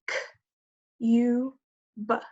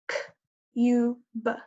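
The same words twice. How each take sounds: First: The sounds are tapped out slowly. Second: The sounds are tapped out faster.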